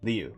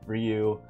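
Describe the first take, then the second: First: The name begins with an L sound. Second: The name begins with an R sound. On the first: This is the form from the English localization. "Yen Press localizing it as Liu" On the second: This is the form from the original books and anime. "I will always use the R pronunciation"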